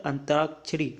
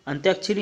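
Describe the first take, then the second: First: अंतराक्षरी with no y glide; long "taa" straight after "an" in अंतराक्षरी; correct form. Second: अंत्याक्षरी with a "tyaa" in it; y glide after the t in अंत्याक्षरी; wrong form. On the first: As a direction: say अंतराक्षरी as an-taak-shri. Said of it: "ये होता है". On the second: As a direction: say अंत्याक्षरी as ant-yaak-shri. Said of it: "नहीं होता". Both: Shown as a demonstration.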